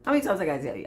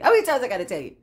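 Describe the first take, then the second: First: Said in the usual way. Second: Louder, insistent repeat; emphatic repeat. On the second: Real, not acted. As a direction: drive the question home louder. Repeats the question with rising force.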